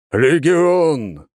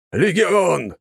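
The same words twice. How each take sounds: First: Chanted, «Легион!» roared even louder, long falling end; chanted, bellow «Легион!» like a full troop. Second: «Легион!» chanted loud, falling at the end. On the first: (chanted, «Легион!» громче, протяжно с падением) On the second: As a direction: call out «Легион!» as a troop chant. (chanted, «Легион!» хором громко, с падением в конце) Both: Acted. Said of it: "громко пробасили они".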